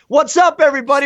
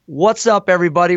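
First: It is delivered in an exaggerated, over-the-top way. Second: It is delivered normally with a little extra energy.

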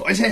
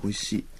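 First: It is said loudly, as an excited exclamation. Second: It is said softly and lightly.

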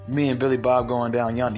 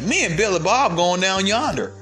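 First: It is said in a plain, unchanged voice. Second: It is said in a put-on country accent. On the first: "you don't be like" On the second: "you would change your voice to sound like them"

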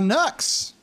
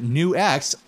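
First: The name is said as one syllable. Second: The name is said as two syllables. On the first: This is a preferred, jokey pronunciation. "I like saying NUX better" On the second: This is the official pronunciation. "That's how you pronounce it"

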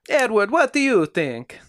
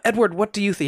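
First: It is said in an Italian accent. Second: It is said in the speaker's plain accent.

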